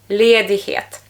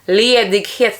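First: The g sound is nearly silent. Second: The g sound is clearly pronounced. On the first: "ale ja mówię ledighet. Czyli to takie G prawie nie wypowiedziane" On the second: "Ledighet też można powiedzieć"

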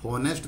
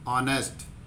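First: The word starts with an audible h sound. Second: The word starts with a vowel, no h. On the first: The speaker calls it wrong. "होनेस्ट नहीं बोलते" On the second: The speaker calls it right. "जो एच है वो silent हो जाता है"

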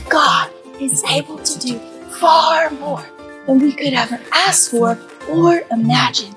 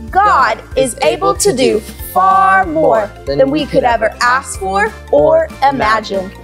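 First: It is said very quietly. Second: It is said at normal loudness.

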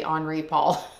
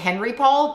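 First: The name is said with a French accent. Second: The name is said with an English accent. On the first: "with the French accent, you say Henri Paul" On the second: "I would call him Henri Paul"

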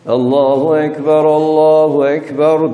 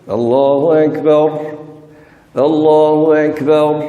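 First: The phrases run together without a stop between. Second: Each phrase is said separately with a stop between. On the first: "Geçerseniz" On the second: "ya duracağız... Tek tek okuyacaksınız. Yani dura dura"

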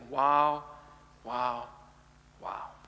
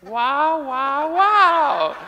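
First: It is said in his normal voice. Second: It is said in a put-on voice.

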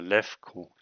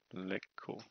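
First: The middle consonant is an F sound. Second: The middle consonant is a G sound. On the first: The speaker calls it right. "wahrscheinlich Lefko" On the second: The speaker calls it wrong. "Es kann G oder F sein"

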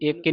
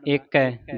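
First: The second word has a close 'ee' vowel. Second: The second word has an open 'ai' vowel. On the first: The speaker calls it wrong. "ਇਹਨੂੰ ਇੱਕ ਹੀ ਨਹੀਂ ਪੜਨਾ" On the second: The speaker calls it right. "ਦਲਾਵਾਂ ਦੇ ਨਾਲ ਉਚਾਰਨ ਕਰਨਾ"

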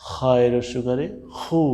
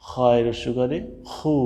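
No difference in how they are said.

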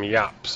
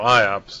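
First: The word starts with a 'y' consonant sound. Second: The word starts with an 'eye' vowel sound. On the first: The speaker calls it right. "they pronounce them YOPS" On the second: The speaker calls it wrong. "I always call IOPS"

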